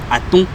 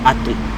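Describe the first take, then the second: First: The pitch rises across the word. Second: The pitch falls across the word. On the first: It means the number five. "la voix qui monte" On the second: It means the number three. "j'ai la voix qui descend"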